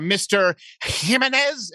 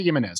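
First: "Jimenez" slow and over-pronounced with a Spanish sound; mock careful Spanish saying of "Jimenez"; drawn-out, higher, showy Spanish "Jimenez"; mock Spanish pronunciation. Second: Said in the usual way. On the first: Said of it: "When people are like". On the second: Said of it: "say it as an American".

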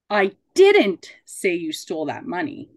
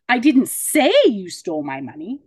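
First: Emphatic DIDN'T; stress on DIDN'T. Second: "say" stretched and punched loud; stress on SAY. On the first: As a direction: hit the word "didn't". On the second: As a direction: lean hard on the word "say". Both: Shown as a demonstration. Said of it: "put an emphasis on each of those words".

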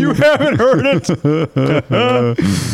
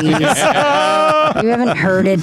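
First: Slow, laughing echo of "You haven't heard it". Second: Slow, drawn-out "You haven't heard it"; drawn-out emphasis. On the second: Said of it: "like my mom saying Parmesan". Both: Retold or imitated.

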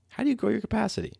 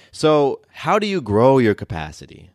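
First: Much higher, softer and faster repeat; repeated question. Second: Said in the usual way. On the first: Shown as a demonstration. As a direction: toss the question back up high and light.

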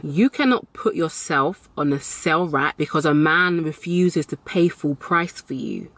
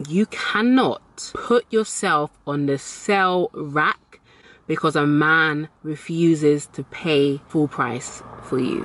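First: Said in the usual way. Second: Slow, deliberate, word by word; emphatic repeat. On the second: Shown as a demonstration. Telling expensive women again for emphasis, slow and emphatic. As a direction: spell it out slowly with spaces between phrases. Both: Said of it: "I'll say that again".

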